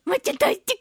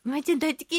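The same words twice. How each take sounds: First: Put-on much higher, sweet child voice; imitating little girl. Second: Said in the usual way. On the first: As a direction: squeak it like a small girl. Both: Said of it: "ってお手紙ももらいますし".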